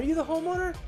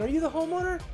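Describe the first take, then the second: First: It is said in a high, overly upbeat inflection. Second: The same.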